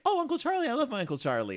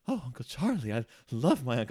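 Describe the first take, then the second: First: It sounds innocent, like a young niece. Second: It sounds romantic, like a lover.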